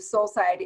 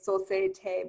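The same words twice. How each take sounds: First: The name is said with English pronunciation. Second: The name is said with French pronunciation. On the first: "I pronounce it like you" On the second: "you could say it in a French way"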